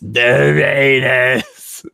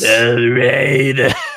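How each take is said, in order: First: It is said in a put-on boomer voice. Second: It is said in his normal voice.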